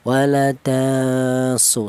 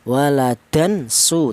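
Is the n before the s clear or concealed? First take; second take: concealed; clear. First: The n sound is blurred into the s. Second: The n sound is pronounced fully and clearly. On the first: The speaker calls it right. "cara bacanya tanwin ini disamarkan ya. Waladasu seperti itu" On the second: The speaker calls it wrong. "Idhar itu artinya jelas, tidak boleh seperti seperti ini ya. Waladan su tidak boleh ya"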